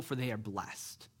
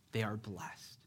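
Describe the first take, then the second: First: Said in the usual way. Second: Soft whispered repeat, letting it sink in; a hushed, reverent whisper; whispered echo. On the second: Shown as a demonstration. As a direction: whisper it back to the room. Repeating God's words for emphasis.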